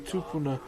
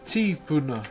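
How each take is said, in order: First: The word begins with a t sound: tu. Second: The word begins with a t sound: ti. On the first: This is the form one tribe uses. "we use the T" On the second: This is the form another tribe uses. "So T I instead"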